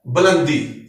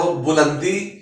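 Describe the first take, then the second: First: बुलंदी said as "belandi" with a short neutral first vowel; बुलंदी, first syllable a short schwa, not u; correct pronunciation. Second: बुलंदी said as "bulandi" with u in the first syllable; बुलंदी with a rounded u after the b; wrong pronunciation. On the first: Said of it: "दुरुस्त तलफ़ुज़ है". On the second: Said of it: "गलत है". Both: Shown as a demonstration.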